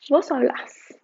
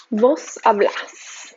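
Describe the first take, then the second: First: Said in the usual way. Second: Slow model. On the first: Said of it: "repeat at normal pace". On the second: Shown as a demonstration. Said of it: "slow model then repeat".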